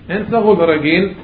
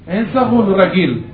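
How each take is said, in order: No difference in how they are said.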